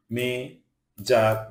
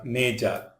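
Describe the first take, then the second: First: "major" broken into two separate syllables; "major" pulled apart for learners; split syllables. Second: Said in the usual way. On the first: Shown as a demonstration. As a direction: say "major" slowly, pausing between syllables. Word split by syllable, then whole.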